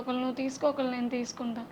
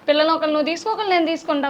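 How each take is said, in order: First: It is said slowly in a sad tone. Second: It is said quickly, without sadness.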